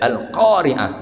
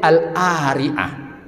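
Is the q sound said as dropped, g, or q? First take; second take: q; dropped. First: The q sound is said as a deep q. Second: The q sound is dropped before the vowel. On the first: This is the proper recitation. The speaker calls it right. "bacalah qaf dengan huruf qaf" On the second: This is the Egyptian dialect way. The speaker calls it wrong. "dialek Amiyah Mesir ... qaf baris atas berubah jadi a"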